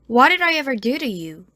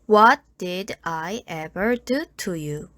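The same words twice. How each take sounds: First: The d and t flow smoothly into the vowels. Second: Each d and t is pronounced fully and separately. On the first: "부드럽게 이어서 발음해줍니다" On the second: "한국식 영어 발음"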